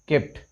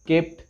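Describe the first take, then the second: No difference in how they are said.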